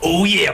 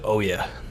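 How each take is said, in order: First: Said in a gruff, loud wrestler voice. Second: Said in a low, slow, seductive voice. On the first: "It's all the wrestler voice" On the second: "That's my seductive voice"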